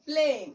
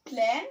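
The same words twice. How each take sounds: First: প্লেন with a long "ay", as in "plane"; loud falling প্লেন with "ay"; long vowel. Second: প্লেন with an open a, as "plan"; short vowel. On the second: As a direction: say প্লেন like "plan", tune rising. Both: Shown as a demonstration. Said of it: "vowel ই যোগ করি".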